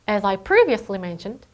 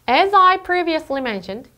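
First: The small words are rushed; key words are stressed. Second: Every word gets the same careful, even weight. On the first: The speaker calls it right. "훨씬 자연스러워요" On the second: The speaker calls it wrong. "이것보다는"

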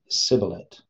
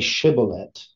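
First: The word begins with an 's' sound. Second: The word begins with a 'sh' sound. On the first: This is how the Ephraimites say it. "they can only say sibboleth" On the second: This is how the Gileadites say it. "they can't say shibboleth"

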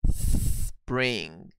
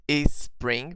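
First: The word starts directly with the s sound. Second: An extra vowel sound comes before the s. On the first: The speaker calls it right. "Precisa ser, olha, sem vibração" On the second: The speaker calls it wrong. "se você disser is, percebe que vibra... Então tá errado o som"

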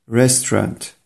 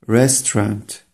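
The two takes are said the same way.

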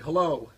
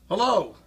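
First: It is said loudly, around 84 decibels. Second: It is said louder, around 90 decibels. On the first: "that's 84"

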